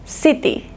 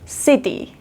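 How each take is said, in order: The two takes are said the same way.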